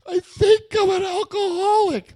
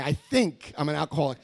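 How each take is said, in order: First: Very high, loud mock wail; over-the-top squealed admission; hammed-up wailing confession. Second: Said in the usual way. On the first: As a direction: blurt it in a huge, high-pitched cry. Acted confession to the hotline.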